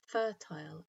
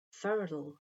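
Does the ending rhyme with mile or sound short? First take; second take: mile; short. First: The ending rhymes with mile. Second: The ending is short, like in bottle. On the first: "end with a sound that rhymes with mile" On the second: "the ending is much shorter, like the end of bottle"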